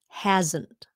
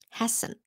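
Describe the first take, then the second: First: The middle consonant is a buzzing Z sound. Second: The middle consonant is a hissing S sound. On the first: The speaker calls it right. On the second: The speaker calls it wrong.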